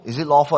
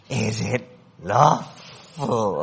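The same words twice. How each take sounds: First: It is asked as a plain, honest question. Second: It is said in a creepy Gollum-like voice.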